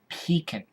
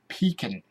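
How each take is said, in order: First: It is said like 'pee-kin'. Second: The same.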